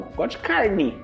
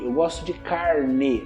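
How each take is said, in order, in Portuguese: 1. A vogal final de carne soa como 'i'. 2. A vogal final de carne soa como 'e'. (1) "Não, ... Com I" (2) "Ninguém fala carne"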